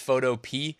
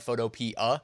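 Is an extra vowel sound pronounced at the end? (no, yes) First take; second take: no; yes. First: The word ends without an extra vowel sound. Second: The word ends with an extra vowel sound. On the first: "I know some people say it's Photopea" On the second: "pronounce that A at the end"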